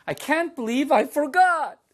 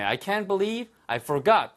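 First: Forgot stressed on the second syllable, much higher and louder. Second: Said in the usual way. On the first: Shown as a demonstration. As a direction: hit the end of forgot, high and loud. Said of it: "forgot 하고 뒤에 액센트가 있습니다". (forgot 뒤 음절에 강세를 높고 크게) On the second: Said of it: "발음 주의하세요".

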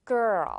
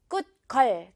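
First: Put-on girl with the tongue rolled. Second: Said in the usual way. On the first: Shown as a demonstration. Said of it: "혀 굴려줄 수 있겠죠". (girl 혀 굴려서)

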